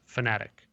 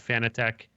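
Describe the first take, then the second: First: It sounds just like the word fanatic. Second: It does not sound like the word fanatic. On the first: This is how the brand name was originally intended. "the original intention, he said, was was fanatic, like a fan fanatic" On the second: This is how most Americans say the brand name. "most Americans call it uh"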